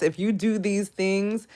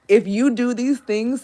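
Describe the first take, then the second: First: Said in the usual way. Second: "if you do these things" pressed louder and slower; louder emphatic repeat. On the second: Shown as a demonstration. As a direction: hammer home "do these things".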